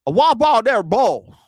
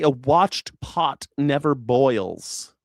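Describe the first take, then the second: First: Mangle "A watch pot never boils" in a mock Virginia twang; ex-father-in-law's Virginia accent. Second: Said in the usual way. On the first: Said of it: "he used to talk like that". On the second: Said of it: "he was trying to say".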